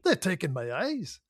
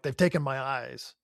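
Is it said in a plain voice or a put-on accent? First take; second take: put-on accent; plain voice. First: It is said in Scotty's put-on accent. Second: It is said in the speaker's own plain voice.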